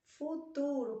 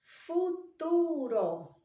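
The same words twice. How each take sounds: First: Said in the usual way. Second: Futuro stretched very slowly, higher and louder; teacher dramatizing futuro; drawn-out emphasis. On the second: Shown as a demonstration. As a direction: draw futuro out long and high. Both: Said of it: "outra forma de contar o tempo".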